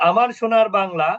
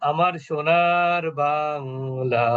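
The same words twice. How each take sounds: First: The vowels are said short and quick. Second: The vowels are stretched out long. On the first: "মাদ হলো না।" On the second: "এটাকে বলা হচ্ছে মাদ।"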